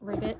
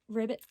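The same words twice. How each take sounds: First: It is said like a frog croak, ribbit. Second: It is said as an ordinary word, rivet. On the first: The speaker calls it wrong. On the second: The speaker calls it right.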